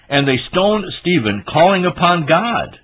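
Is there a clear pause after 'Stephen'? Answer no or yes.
no. It runs on with no clear pause after Stephen. The ones stoning him were calling upon God. The speaker calls it wrong. "Is that what that says? No"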